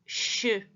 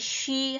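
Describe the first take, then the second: First: The sh sound is made far back, tongue curled. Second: The sh sound is made at the front. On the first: "이거는 목 뒤에서 쉬" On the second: "영어에 쉬 하는 건 앞에서 소리가 나잖아"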